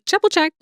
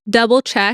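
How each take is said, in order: First: The first word begins with a J sound. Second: The first word begins with a D sound. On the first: The speaker calls it wrong. "I always say "jubble check," like a J or a chi" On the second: The speaker calls it right. "I think double, D, double check"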